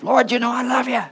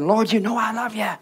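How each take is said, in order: First: It is said in a rough, upset tone. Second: It is said in a calm, plain tone.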